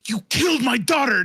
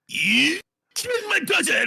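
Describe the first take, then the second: First: It uses an ordinary English inflection. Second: It uses a Japanese-style inflection. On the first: "You're gonna go" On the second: "Like in English, you don't go"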